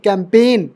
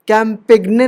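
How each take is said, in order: First: No g sound is heard before the n. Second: A g sound is heard before the final n. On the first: The speaker calls it right. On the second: The speaker calls it wrong.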